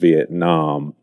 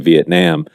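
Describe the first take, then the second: First: The last vowel is an open ah sound. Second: The last vowel is not an ah sound. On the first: This is the most common American pronunciation. "most people in America say it with the ah sound" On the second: Only some people say it this way. "but some people say"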